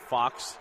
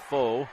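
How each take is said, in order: First: The name ends in a 'ks' sound. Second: The name ends in a long vowel sound. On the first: The speaker calls it right. "or Fox, I guess you should say" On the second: The speaker calls it wrong. "Now the foul is going to be to Kinley Foe"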